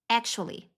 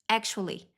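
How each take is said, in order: No difference in how they are said.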